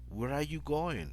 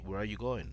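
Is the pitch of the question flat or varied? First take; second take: varied; flat. First: The question is said with clear pitch variation. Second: The question is said on a flat pitch. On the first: Listeners can tell it is a question. The speaker calls it right. "you have to give that uh, variation in pitch" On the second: Listeners may not understand it is a question. The speaker calls it wrong. "You don't say, ... Like in Spanish"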